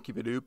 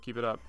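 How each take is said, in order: First: The word up is said with an oo vowel. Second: The word up is said with a plain vowel.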